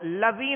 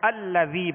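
First: The word starts directly with the l sound. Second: The word starts with a vowel before the l. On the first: The speaker calls it wrong. "تو اب اس کو لذی نہیں پڑھیں گے" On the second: The speaker calls it right. "تو الذی پڑھیں گے"

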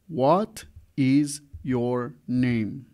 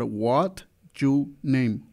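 First: Every word is said fully and separately. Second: The words blur together in a heavily reduced form.

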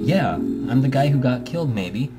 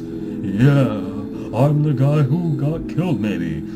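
First: It is said in a normal speaking voice. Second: It is said in a put-on ghostly voice.

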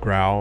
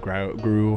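First: The vowel sounds like the one in 'owl'. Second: The vowel sounds like the one in 'new'. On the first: "however you want to pronounce it. I think it's growl" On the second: "however you want to pronounce it"

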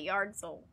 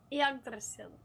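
First: The first syllable sounds like yard. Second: The first syllable sounds like egg. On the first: The speaker calls it wrong. "I used to call it Yardzil, which is so stupid because there's no yard in it at all" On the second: The speaker calls it right. "The YGG is pronounced like egg"

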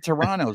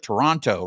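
First: The second T is dropped. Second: The second T is clearly pronounced. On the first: This is how Canadians say it. "the Canadians, they say Toronto" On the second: This is how people in Los Angeles say it. "They pronounce the T at the end"

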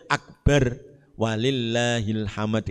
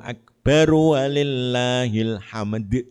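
First: There is a pause after akbar before walillahil hamd. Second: Akbar runs straight into walillahil hamd without pausing. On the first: The speaker calls it wrong. "Enggak boleh akbar walillahil hamd" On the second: The speaker calls it right. "itu caranya gitu"

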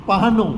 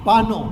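The two takes are said the same way.

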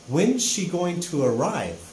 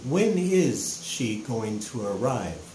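First: When and is are joined into one contracted word. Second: When and is are said as two full words. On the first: It is a casual, informal way to ask. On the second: It is a more formal way to ask.

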